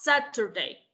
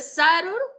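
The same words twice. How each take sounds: First: The middle consonant is a clear t sound. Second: The middle consonant sounds like a quick r. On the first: "Saturday con la T, así tal cual como lo está leyendo" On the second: "Saturday con R"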